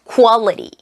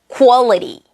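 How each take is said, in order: The two takes are said the same way.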